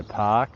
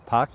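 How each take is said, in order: First: "Park" with the vowel drawn out long; dragged-out vowel. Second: Said in the usual way. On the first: Shown as a demonstration. Australian streamer showing viewers how he says it, "Park" stretched out. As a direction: drag out the "ar" in "Park". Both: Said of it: "drag it out".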